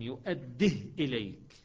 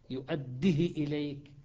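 First: The h has no vowel after it. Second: The vowel after the h is very short. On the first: "يقرأ بإسكان الهاء" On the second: "شوف الدال مكسورة كسرة مختلسة، والهاء مختلسة"

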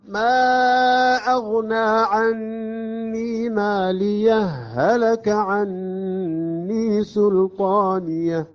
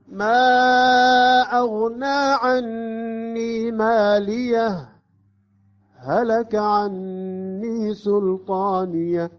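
First: ماليه runs straight into هلك, without pause. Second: There is a brief pause after ماليه.

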